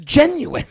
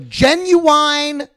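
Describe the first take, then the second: First: The word is said with a standard pronunciation. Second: The word is said with a Southern pronunciation. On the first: It is the correct form of the word. "the word is genuine" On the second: It copies how people in Texas say it. "that's the way my teacher says it"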